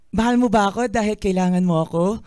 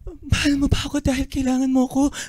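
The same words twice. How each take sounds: First: The line is delivered in a happy tone. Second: The line is delivered in a fearful tone.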